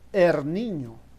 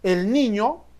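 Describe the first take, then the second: First: The first word ends in an R sound. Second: The first word ends in an L sound. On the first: "podemos expresarnos del siguiente modo" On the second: "que es una construcción correcta"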